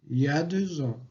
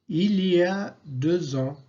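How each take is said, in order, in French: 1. Le mot « il » disparaît complètement. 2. Le mot « il » est prononcé en entier. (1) "il disparaît complètement dans l'expression il y a" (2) "À l'écrit"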